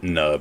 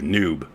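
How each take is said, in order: First: The vowel is a short 'uh' sound. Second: The vowel is a long 'oo' sound. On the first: The speaker calls it wrong. "I pronounce it Nub" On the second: The speaker calls it right. "I meant it to be the hard U"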